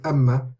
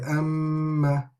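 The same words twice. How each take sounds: First: The m sound is short and clipped. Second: The m sound is held for a long time. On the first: The speaker calls it wrong. "instead of saying amma" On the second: The speaker calls it right. "we stay on the sound of the meme and the noon for a prolonged period"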